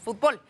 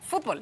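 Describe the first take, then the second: First: The stress is on the last syllable. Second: The stress is on the first syllable. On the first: This is how people in Mexico say it. "sino que decimos fútbol" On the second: This is the dictionary form that nobody in Mexico uses. "aunque nadie diga fútbol"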